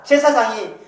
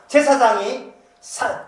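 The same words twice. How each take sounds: First: Said in the usual way. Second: 제사장이 drawn out slowly with a rising tune; 제사장이 emphasized, slow and rising; slow stress. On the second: Shown as a demonstration. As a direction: stretch 제사장이 and lift it. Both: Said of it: "그 핵심이 뭐냐?".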